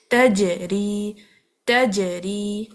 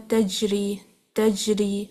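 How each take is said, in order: First: تجری very slow, jeem released with a bounce; slow تجری with qalqala bounce; bounced jeem. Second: تجری said quickly, jeem without bounce; quick تجری, no qalqala; wrong pronunciation. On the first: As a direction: bounce the jeem out after blocking. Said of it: "ہمیں اس کو bounce کرنا پڑے گا". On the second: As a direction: show the common mistake. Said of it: "وہ غلط پڑھتے ہیں". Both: Shown as a demonstration.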